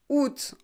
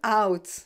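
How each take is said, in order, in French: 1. La voyelle se prononce 'oo', un seul son, sans a. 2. La voyelle se prononce 'ow', avec le a entendu. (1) "it's août en français" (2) "It's not out"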